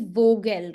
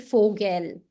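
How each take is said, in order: First: The first sound is a voiced V. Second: The first sound is a voiceless F. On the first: The speaker calls it wrong. "it will not be Vogel" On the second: The speaker calls it right. "Because V is pronounced as F, so it will be Vogel"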